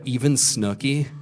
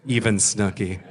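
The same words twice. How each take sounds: First: "Even Snooki?" drawn out as a rising question; slow, incredulous check on "Even Snooki?". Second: "even Snooki" said low as a settled answer; lower, matter-of-fact "even Snooki"; confirming. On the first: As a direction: ask "Even Snooki?" slowly, lifting at the end. Asks cast, in disbelief. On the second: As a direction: confirm "even Snooki" without any question lift. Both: Retold or imitated.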